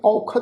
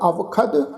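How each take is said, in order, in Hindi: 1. पहला अक्षर 'au' की तरह बोला जाता है। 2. पहला अक्षर 'av' की तरह बोला जाता है। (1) "इनू औखद नहीं उच्चारण करना" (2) "वावा लगा हुआ"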